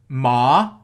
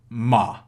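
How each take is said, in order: First: The syllable carries the second tone. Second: The syllable carries the third tone.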